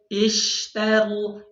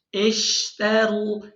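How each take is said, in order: No difference in how they are said.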